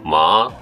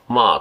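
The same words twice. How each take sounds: First: The pitch dips down and then comes back up. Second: The pitch falls through the syllable. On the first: "一回下がってまた戻るのと" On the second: "まあと下がるのと"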